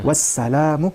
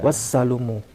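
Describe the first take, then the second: First: The vowel after the L is a. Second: The vowel after the L is u. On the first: The speaker calls it right. "bacaan yang benar adalah sebenarnya bukan wassalumu tapi wassalamu" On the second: The speaker calls it wrong. "bacaannya bukan wassalumu seperti ini"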